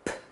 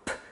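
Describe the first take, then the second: No difference in how they are said.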